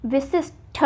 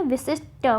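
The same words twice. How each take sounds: First: विशिष्ट ending in aspirated ṭha; विशिष्ट with a puff on the last ṭ; wrong form shown. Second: विशिष्ट ending in unaspirated ṭa; विशिष्ट, no puff on the last ṭ; correct form shown. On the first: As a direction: say विशिष्ट as "vishishth". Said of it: "नहीं होता है". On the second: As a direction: say विशिष्ट as "vishisht". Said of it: "विशिष्ट होता है". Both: Shown as a demonstration.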